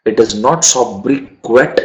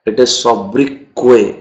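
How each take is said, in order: First: Sobriquet said with the final t sounded, so-bri-ket; wrong pronunciation. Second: Sobriquet said with a silent t, so-bri-kay; correct pronunciation. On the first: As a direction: say sobriquet wrongly with a hard t at the end. (sobriquet को गलत, आखिर में ट बोलकर) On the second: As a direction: say sobriquet right, ending in kay. (sobriquet सही, आखिर का ट silent, सो-ब्री-के) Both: Shown as a demonstration.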